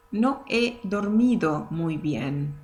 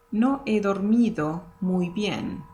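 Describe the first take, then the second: First: Slow "No he dormido muy bien" with silent h. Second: "No he dormido muy bien" run together smoothly; flowing. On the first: Teacher modelling the silent h for learners. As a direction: say "he" as a bare e, slowly. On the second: Teacher repeating the sentence at natural flow. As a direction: blend "he" into the sentence. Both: Shown as a demonstration. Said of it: "the H in Spanish is always silent".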